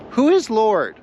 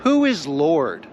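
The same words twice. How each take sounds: First: "Who is Lord?" again, higher and louder, punching "is"; emphatic repeat. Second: Who is Lord asked slow and measured, each word weighed; slow question. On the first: Preacher driving the question home to the church, raised and emphatic. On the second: Preacher posing the key question to the congregation, slow and weighty. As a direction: let "who is Lord?" hang, slow and deliberate. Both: Shown as a demonstration. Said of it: "And the question is".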